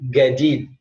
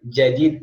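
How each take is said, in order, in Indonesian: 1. Kata ini dimulai dengan bunyi g keras. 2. Kata ini dimulai dengan bunyi j.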